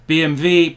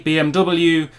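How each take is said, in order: First: B M W spelled out as 'bay em vay'; German pronunciation. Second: B M W spelled out as 'bee em double-you'; English pronunciation. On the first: Listing German car makers, German pronunciation of BMW. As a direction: say B M W with German letter names, W as 'vay'. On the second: Giving the English version of car names, English pronunciation of BMW. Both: Shown as a demonstration. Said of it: "the English pronunciation would be".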